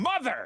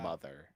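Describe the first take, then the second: First: The word is said loudly, as an exclamation. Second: The word is said flatly, without emphasis. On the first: The speaker calls it right. "That's right" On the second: The speaker calls it wrong. "I've been saying it wrong"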